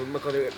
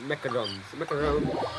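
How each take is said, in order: First: Said in the usual way. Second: Mock French accent. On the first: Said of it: "trying to do a French accent". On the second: Shown as a demonstration. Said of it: "Sorry, I'm probably trying to do a French accent".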